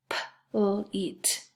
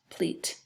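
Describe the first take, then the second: First: "p-l-eat" as separate sounds, p, l, eat; sounded out. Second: Said in the usual way. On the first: Shown as a demonstration. Teacher breaking down a second syllable, "p-l-eat" in pieces. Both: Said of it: "That's two syllables too".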